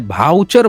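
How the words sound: The word starts with a 'bh' sound. This is how people in Bihar say it. "भाउचर बोलते हैं वहाँ पे"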